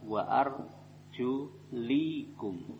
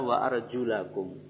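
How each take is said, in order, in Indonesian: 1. Vokal sebelum 'kum' adalah 'i'. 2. Vokal sebelum 'kum' adalah 'a'. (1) "Kalau orang Syiah mereka bacanya apa?" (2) "bacaan yang benar adalah"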